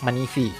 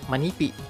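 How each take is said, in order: First: The middle consonant is an f sound. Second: The middle consonant is a p sound. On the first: "bisa pakai F" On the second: "kalau P misalnya manipi"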